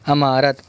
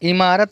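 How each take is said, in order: First: The first vowel is an 'a' sound. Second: The first vowel is an 'i' sound. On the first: The speaker calls it right. "बल्कि अमारत कहेंगे" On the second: The speaker calls it wrong. "इमारत नहीं कहेंगे"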